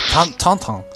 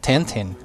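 First: The name is said with a French pronunciation. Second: The name is said with a Greek pronunciation. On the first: "In French, ... It's Tantan" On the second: "in Greek it's Tintin"

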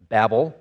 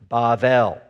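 First: The middle consonant is a B sound. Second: The middle consonant is a V sound. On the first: This is the usual English name. The speaker calls it wrong. "we call this Babel" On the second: This is the original Hebrew name. The speaker calls it right. "if you want to say this accurately, the way they said it all those years ago, it's Bavel"

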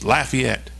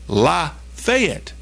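First: It sounds like 'laugh-ee-ette', without a 'fay' sound. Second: It sounds like 'la-fay-ette', with a clear 'fay' sound. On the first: This is how it is said in Louisiana. "That is definitely how you're going to pronounce that word down in Louisiana" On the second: This is how it is said in Georgia. "In Georgia, it's L-A space F-A-Y-E-T-T-E"

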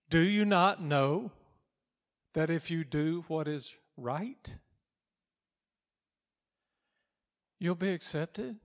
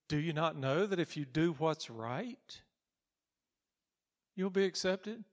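First: It is said weightily, with strong emphasis. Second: It is said lightly, without much weight.

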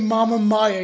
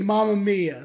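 First: The first vowel of 'Mia' sounds like 'my'. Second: The first vowel of 'Mia' sounds like 'me'. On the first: The speaker calls it wrong. "You don't say Mama Maya" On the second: The speaker calls it right. "You say Mama Mia"

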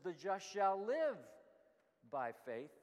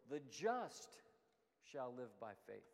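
First: The stress is on the word live. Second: The stress is on the word just.

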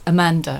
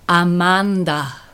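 First: It is said with a plain English accent. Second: It is said with a Spanish accent.

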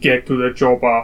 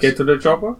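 First: The voice falls at the end. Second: The voice rises at the end.

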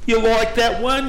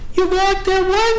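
First: The voice is pitched lower. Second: The voice is pitched higher. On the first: The speaker calls it wrong. "hear this" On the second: The speaker calls it right. "But it was higher"

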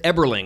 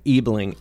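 First: The name is said with an added R sound. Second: The name is said without an R sound. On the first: The speaker calls it wrong. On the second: The speaker calls it right.

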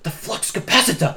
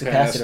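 First: It is said in a put-on Doc voice. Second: It is said in his normal voice.

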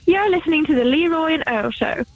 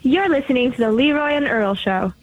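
First: It is said in an English accent. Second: It is said in an American accent.

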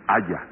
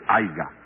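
First: The word has no g sound in the middle. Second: The word has a hard g sound in the middle. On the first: The speaker calls it right. "sino haya" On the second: The speaker calls it wrong. "no se dice aiga"

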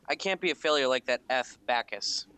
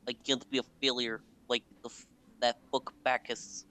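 First: It is said in his normal voice. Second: It is said in a put-on Russian accent.

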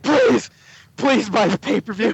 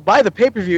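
First: It is said in a pleading, begging tone. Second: It is said in a plain, ordinary tone.

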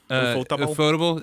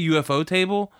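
First: The name runs together as one blended word. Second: The name splits into 'UFO' and 'table'. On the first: This is how most people say the name. "I think that's how people say it" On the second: The name is read as the word UFO plus table. "I say UFO table"

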